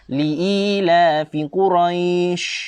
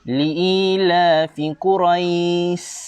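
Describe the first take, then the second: First: The last word ends with an 'sh' sound. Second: The last word ends with an 's' sound. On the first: The speaker calls it right. "kalau baca dengan bacaan betul bunyi macam mana ustaz?" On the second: The speaker calls it wrong. "Bagaimana ustaz bunyi dia kalau baca dengan huruf sin? Bunyi dia seperti ini"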